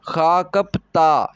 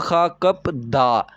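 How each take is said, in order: First: The last syllable begins with a tense t sound. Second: The last syllable begins with a plain d sound. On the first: The speaker calls it right. "ये रूल लगा के मैं पढ़ रहा हूं" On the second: The speaker calls it wrong. "Rule के बगैर पढ़ूंगा तो क्या होगा? ... जो कि गलत तस्वुर किया जाएगा"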